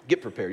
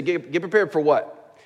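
First: Said in the usual way. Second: Slower, stumbling, higher questioning repeat; a listener questioning the pastor, mock puzzled; puzzled objection. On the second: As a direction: push back as a confused listener would. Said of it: "You say".

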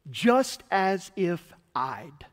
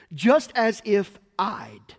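First: Slow. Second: Slow, each word of "Just as if I'd" stressed; slow emphatic. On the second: Pastor teaching the meaning of justified, slow and stressed. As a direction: spell out "Just as if I'd" slowly with weight. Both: Shown as a demonstration. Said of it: "Justified means this".

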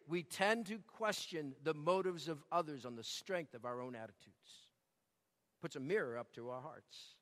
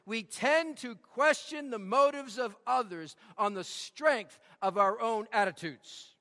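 First: "tend" and "our own" said much softer and lower; hushed, lower reprise for the congregation to reflect; quiet repeat. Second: "tend" and "our own" leaned on, slowed at the end; emphatic preaching line; stress on tend and own. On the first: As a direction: drop to a low, hushed echo of the line. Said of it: "See it?". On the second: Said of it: "get this". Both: Shown as a demonstration.

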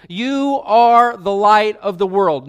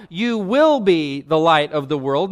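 First: ARE leaned on, slow and louder; stress on ARE. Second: WILL marked as the wrong word; stress on WILL. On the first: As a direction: plant the word ARE firmly. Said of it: "he says emphatically to them". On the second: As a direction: lean on WILL to show the contrast. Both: Shown as a demonstration.

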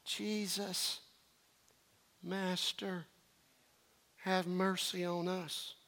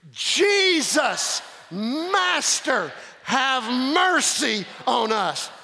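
First: Barely audible, flat and half-hearted plea; a desperate cry done wrong, almost silent; limp mumble. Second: Crying out. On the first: Preacher mocking a weak cry for mercy, murmured softly. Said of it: "I cannot imagine them going". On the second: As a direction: cry it out as one voice. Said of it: "I want you to cry it out". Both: Shown as a demonstration.

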